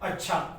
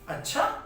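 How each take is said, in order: First: It is said as calm agreement. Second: It is said with a questioning tune. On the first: The listener accepts what was said. "जब हम किसी बात की स्वीकृति देते हैं" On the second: The listener is asking whether it is true. "यहां प्रश्नवाचक की बात हो रही है"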